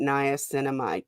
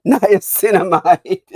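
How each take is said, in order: First: Said in the usual way. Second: Niacinamide louder and drawn out, with a laugh; emphatic correction. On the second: Real, not acted. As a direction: stress niacinamide slowly, amused. Repeats term after "Not niacin.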